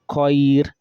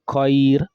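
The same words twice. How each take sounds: The two takes are said the same way.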